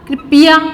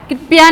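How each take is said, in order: First: The p is followed by a full vowel. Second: The p joins the next consonant with no vowel. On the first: The speaker calls it right. "प पूरा आ गया" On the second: The speaker calls it wrong. "कृपया नहीं होता"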